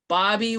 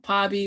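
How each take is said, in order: First: It begins with a plain B sound. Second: It begins with a plain P sound. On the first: "it's not Bobby with a B" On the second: "it's not Pobby with a P"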